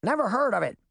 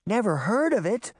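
First: High-pitched bird squawk; brisk, high dodo voice. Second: Put-on high, incredulous girl's exclamation; astonished echo, pitched up; exclaiming. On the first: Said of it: "the Dodo squawked". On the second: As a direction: throw it back in disbelief. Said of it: "Daphne exclaimed". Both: A narrator's reading.

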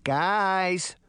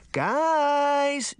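First: Higher, held-back call for attention; attention-seeking call. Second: High, drawn-out shout; insistent shout. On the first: Daphne to her bickering companions, calling for attention. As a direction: try to break in, only moderately raised. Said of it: "trying to get their attention". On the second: Daphne interrupting the quarrel, shouting urgently. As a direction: shout to cut through the argument. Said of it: "Daphne shouted". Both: A narrator's reading.

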